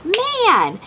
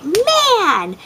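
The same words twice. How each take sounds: First: High, sharp retold "Man!"; mom's frustrated outburst. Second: Put-on high, sharp little-girl "Man!"; a toddler parroting mom's frustration; daughter copying mom. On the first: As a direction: blurt it in mock frustration while slapping the counter. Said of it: "I was like". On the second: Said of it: "she was like".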